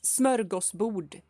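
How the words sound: It is said with a Swedish pronunciation. The speaker calls it right. "because it's smörgåsbord"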